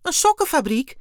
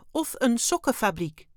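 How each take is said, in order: First: Very high, loud astonished exclamation; bewildered cry. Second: Higher alien voice, falling at the end; offhand alien. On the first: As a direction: cry out, utterly flabbergasted. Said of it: "riep Dexter verbijsterd uit". (verbijsterd uitroepen) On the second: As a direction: add it casually as a statement. Wim casually adds an option. (luchtig, terloops opgemerkt) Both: A narrator's reading.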